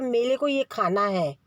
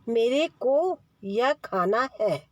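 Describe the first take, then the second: First: The first word uses an l sound instead of r. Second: The first word uses a clear r sound. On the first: The speaker calls it wrong. "बच्चा अगर ... बोलेगा" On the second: The speaker calls it right. "ऐसे बोलो"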